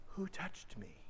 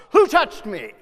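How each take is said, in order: First: Whispered, much softer, tender question; gentle whisper. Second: Loud, sharp accusing question; accusing demand. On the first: How Jesus really asked, a tender whisper. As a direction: breathe it tenderly, no blame. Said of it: "This is gentle". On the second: How Jesus did not say it, loud and accusing. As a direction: bark it like an accusation. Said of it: "It's not". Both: Shown as a demonstration.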